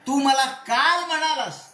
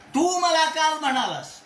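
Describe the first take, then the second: First: The stress falls on the word काल. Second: The stress falls on the word तू. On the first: You said it yesterday, not on another day. "परवा तेरवा नाही, काल म्हणलास" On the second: You said it, nobody else did. "इथे तूला जोर दिला"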